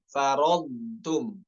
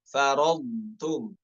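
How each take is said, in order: The two takes are said the same way.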